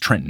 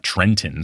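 First: The middle T is soft, not fully released. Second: The middle T is a hard, released T. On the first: The speaker calls it right. "you don't say the hard T" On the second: The speaker calls it wrong. "not Trenton"

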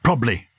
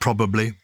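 First: A middle syllable is dropped from the word. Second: Every syllable of the word is pronounced. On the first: "That's called haplology" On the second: "instead of probably"

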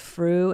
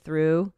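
First: The word is said in the imitated rapper's way. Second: The word is said in the usual way. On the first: This is how the rapper says it. "she says through instead of through" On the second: This is how it is normally said. "instead of through"

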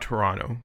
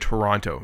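First: The second t is dropped. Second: The second t is clearly pronounced. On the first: This is the everyday casual way to say the name. "not Toronto" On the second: The speaker wants listeners to know exactly where they live. "I'm giving it that precedence of I live in Toronto"

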